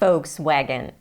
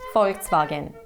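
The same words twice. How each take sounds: First: It is said with an American pronunciation. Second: It is said with a German pronunciation. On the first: "in the U S, most of the people say" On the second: "In Germany, though, they say"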